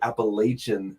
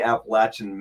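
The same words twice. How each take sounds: First: It is said the way outsiders say it. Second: It is said the local Appalachian way.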